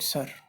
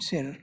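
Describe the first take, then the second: First: The vowel is a central 'er' sound. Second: The vowel is a front 'ee' sound. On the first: This is how English speakers say it. "but you call it sir" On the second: This is how the spelling reads in European pronunciation. "It should have been sir"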